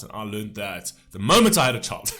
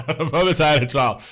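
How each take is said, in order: First: Said in the usual way. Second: Laughing through the words; real laugh while repeating it. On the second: Real, not acted.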